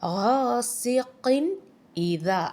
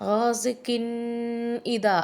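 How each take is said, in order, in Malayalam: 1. n ശബ്ദം വ്യക്തമായി ഉച്ചരിക്കുന്നു. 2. n ശബ്ദം idha-യിലേക്ക് മങ്ങി ചേരുന്നു. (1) "ഇങ്ങനെ വെളിവാക്കി പറയണം" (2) "അങ്ങനെ പറയാതെ"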